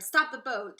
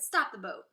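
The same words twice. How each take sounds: First: Louder retold shout. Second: Loud sudden order; shouted. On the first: A narrator's reading. Narrator recalling Wonka's order, loud shout. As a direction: repeat the order with full volume. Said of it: "When Mister Wonka shouted". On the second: Acted. Wonka ordering the Oompa Loompas to stop, loud shout. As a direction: call out to halt the boat.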